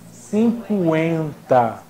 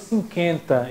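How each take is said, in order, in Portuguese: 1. O u depois do q é pronunciado. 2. O u depois do q é mudo. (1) "Eu digo 50. O U tem som" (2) "Por que eu não digo 50?"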